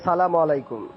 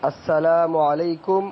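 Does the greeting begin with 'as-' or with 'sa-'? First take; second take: sa-; as-. First: The greeting starts with 'sa-' and has 'salam'. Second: The greeting starts with 'as-' and has 'salamu'. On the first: The speaker calls it wrong. "এটা অবশ্যই সালামের সঠিক উচ্চারণের বিপরীত" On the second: The speaker calls it right. "সবচেয়ে উত্তম"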